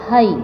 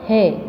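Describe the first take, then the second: First: The vowel glides from a to i. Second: The vowel is a single steady sound. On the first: The speaker calls it wrong. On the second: The speaker calls it right.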